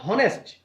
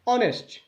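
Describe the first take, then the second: First: The word starts with an h sound. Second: The word starts with a vowel sound. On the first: The speaker calls it wrong. "This is not हॉनेस्ट" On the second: The speaker calls it right. "But ऑनेस्ट"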